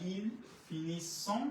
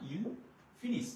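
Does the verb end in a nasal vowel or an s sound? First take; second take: nasal vowel; s sound. First: The verb ends with a nasal 'on' vowel. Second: The verb ends with a plain s sound. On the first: The speaker calls it wrong. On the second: The speaker calls it right.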